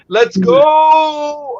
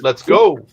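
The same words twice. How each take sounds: First: The vowel in 'go' is stretched out long. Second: The vowel in 'go' is kept shorter. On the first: Someone else's catchphrase said their way. "I didn't say let's go" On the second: A shortened version that is not someone else's catchphrase. "I used one letter O less than him, so I, I shortened it"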